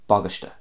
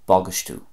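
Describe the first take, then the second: First: It is said in a Connacht Irish accent. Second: It is said in an Ulster accent, ending in u.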